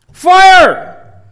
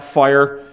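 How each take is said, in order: First: "Fire!" yelled much higher and louder; shouted alarm. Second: Said in the usual way. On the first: Shown as a demonstration. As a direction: scream "Fire!" as a real alarm. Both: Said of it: "Is that just for your information?".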